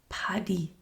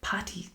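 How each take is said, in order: First: The middle consonant is a D sound. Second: The middle consonant is a T sound. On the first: It is the nickname for Patrick. The speaker calls it right. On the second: The name means nothing to Irish people. The speaker calls it wrong. "when Americans say Patty ... I'm pronouncing it different"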